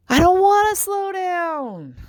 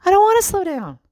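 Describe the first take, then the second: First: High, slow, drawn-out whine; whiny protest. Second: Higher and louder, insisting; louder insistence. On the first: Mom whining back at her family, high and drawn out. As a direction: stretch it out like a stubborn kid. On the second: Mom insisting to her family, louder and high. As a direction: push it harder the second time. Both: Retold or imitated.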